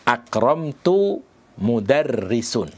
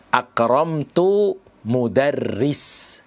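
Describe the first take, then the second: First: The last word ends with a final u-sound. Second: The last word ends with no final vowel. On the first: "tidak boleh dibaca marfu'" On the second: "dengan mensukun huruf mensukun kata mudarris"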